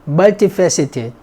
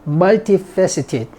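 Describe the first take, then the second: The two takes are said the same way.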